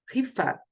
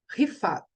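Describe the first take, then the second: First: The name ends sharply on the t. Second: The same.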